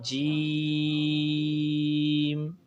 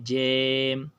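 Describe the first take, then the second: First: The vowel sounds like a long 'ee'. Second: The vowel sounds like 'ay'. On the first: The speaker calls it right. "ना मजहूल पढ़ना है ... तीन अलिफ खींच कर पढ़ना है" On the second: The speaker calls it wrong. "इसको मजहूल भी नहीं पढ़ना जैसे जेम"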